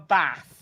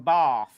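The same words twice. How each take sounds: First: The vowel in bath is short, without an r-like sound. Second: The vowel in bath is long, sounding like 'barth'. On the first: This is how the speaker's own region says it. "I have a bath" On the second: This is how people further south say it. "Down here they have a bath. Where the fuck's the R? It's got B A R T H"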